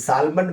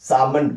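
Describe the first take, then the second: First: The name is said with an L sound. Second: The name is said without an L sound. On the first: The speaker calls it wrong. "सालमंड मत बोलिएगा कभी" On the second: The speaker calls it right. "सामंड बोलते हैं"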